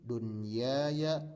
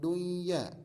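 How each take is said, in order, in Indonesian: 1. Bunyi n tetap dibaca jelas sebelum y. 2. Bunyi n hilang sebelum y. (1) "Tapi ini baca seperti adanya" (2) "bukan duya"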